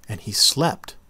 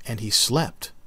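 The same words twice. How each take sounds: The two takes are said the same way.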